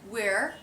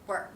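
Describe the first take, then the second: First: The word is said fully, without reduction. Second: The word is said quickly in reduced form.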